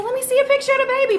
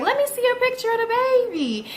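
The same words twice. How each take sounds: First: Higher, fast, pushier repeat; insistent repeat. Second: Higher, insistent request; demanding. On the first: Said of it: "I said". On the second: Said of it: "So I was like". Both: Retold or imitated.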